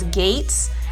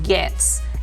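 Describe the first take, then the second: First: The vowel sounds like the one in 'gates'. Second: The vowel sounds like the one in 'bets'. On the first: The speaker calls it wrong. "some people pronounce it as Gates" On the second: The speaker calls it right. "It's pronounced Getz"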